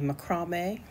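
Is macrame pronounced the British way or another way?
British. It is said in the British pronunciation.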